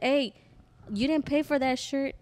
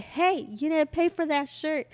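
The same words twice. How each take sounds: First: Mild, higher-pitched retold call; first challenge, raised but restrained; calling after someone. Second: Higher, slower retold shout after someone; drawn-out, raised challenge, more forceful; insistent calling out. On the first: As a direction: call out to stop someone leaving. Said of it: "she tried walking away". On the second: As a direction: call out firmly to someone ignoring you. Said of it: "she tried to ignore me".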